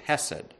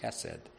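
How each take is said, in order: First: The word is said with English sounds. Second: The word is said with Hebrew sounds. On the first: "which I'm anglicizing quite a bit, even in pronunciation" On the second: "If I was going to get a little closer to the Hebrew"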